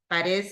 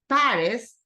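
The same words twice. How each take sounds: First: It is said with a Spanish pronunciation. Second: It is said with an English pronunciation. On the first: This is how the name is said in Spanish. "Paris is in Spanish" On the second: This is how the name is said in English. "In English, it's Paris, like [name]"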